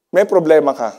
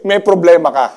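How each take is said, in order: First: "May" pushed hardest at the start, "problema ka" falling; stress on may. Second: "problema" pushed hardest, "ka" falling away; stress on problema. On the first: Pastor repeating, now stressing "May" to the crowd. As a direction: hit "May" first, then fall. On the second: Pastor stressing "problema" to the congregation. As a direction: lean on "problema", let "ka" drop. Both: Shown as a demonstration.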